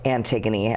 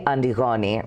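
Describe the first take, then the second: First: The name is said with an English pronunciation. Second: The name is said with a Greek pronunciation.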